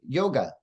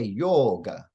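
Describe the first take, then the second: First: The o vowel is held short. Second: The o vowel is held long. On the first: "When the English speakers say it" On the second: "when the Indians say it, ... that O is a long vowel sound"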